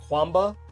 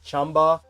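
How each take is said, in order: First: The name is said the common American way. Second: The name is said the Chinese way. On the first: The speaker calls it wrong. "a lot of U S people pronounce it Kwamba" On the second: The speaker calls it right. "It's more like Chamba"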